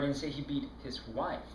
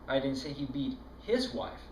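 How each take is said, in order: First: The word 'wife' carries the main stress. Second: The word 'his' carries the main stress. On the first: It was someone other than his wife. "No, it was his girlfriend he beat" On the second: It was another man's wife. "No, it was that other guy's wife that he was beating"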